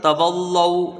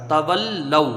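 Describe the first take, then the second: First: Put-on تولو with the lam made heavy, as the children do; wrong heavy lam. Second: تولو with a light, thin lam; correct thin lam. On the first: Teacher imitates how children misread the word. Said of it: "بچے اس کو کیسے پڑھتے ہیں". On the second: Teacher models the correct thin-lam reading. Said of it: "یہ بھی باریک پڑھا جائے گا". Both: Shown as a demonstration.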